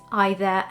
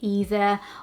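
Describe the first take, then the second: First: It is said with a British pronunciation. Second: It is said with an American pronunciation. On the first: "the official British pronunciation, it is either" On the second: "in American pronunciation you would say either"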